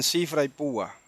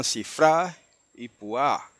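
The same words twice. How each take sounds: First: CIfra y PÚa, stressed on first syllables; Spanish-style stress. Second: CiFRÁ y puÁ, stressed on last syllables; Hebrew final stress. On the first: Teacher quoting how brethren say cifra y púa, first-syllable stress. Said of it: "muchos hermanos dicen". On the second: Teacher correcting to Hebrew, cifra y púa stressed on final A. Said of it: "En el hebreo se dice". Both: Shown as a demonstration.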